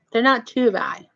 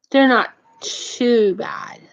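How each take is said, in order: First: Said in the usual way. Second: Slow, tearful catch in the voice; choked up. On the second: Real, not acted. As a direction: voice cracks with emotion while praising them. Choked up praising the food bank.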